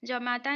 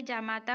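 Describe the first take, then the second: First: जमाता with short "ja"; जमाता, first vowel kept short; wrong short first vowel. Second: जामाता with long "jaa"; जामाता, first vowel held open; correct long first vowel. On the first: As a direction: say जमाता as juh-maa-taa. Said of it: "नहीं होता है". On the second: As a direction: say जामाता as jaa-maa-taa. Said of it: "होता है". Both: Shown as a demonstration.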